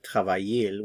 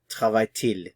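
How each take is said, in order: First: The two vowels run together with no t. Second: A t sound separates the two vowels. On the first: The speaker calls it wrong. "instead of saying travaille-il" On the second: The speaker calls it right. "We pronounce the T"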